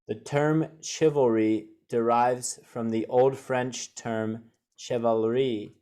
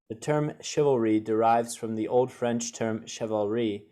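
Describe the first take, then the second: First: It is read slowly and carefully. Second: It is read at normal fast speed.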